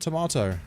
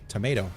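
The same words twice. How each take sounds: First: Tomato is said in a British accent. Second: Tomato is said in an American accent.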